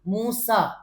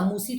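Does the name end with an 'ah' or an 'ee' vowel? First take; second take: ah; ee. First: The name ends with an 'ah' vowel. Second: The name ends with an 'ee' vowel. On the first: The speaker calls it right. "मूसा ही कहेंगे ना" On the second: The speaker calls it wrong. "मूसी तो नहीं"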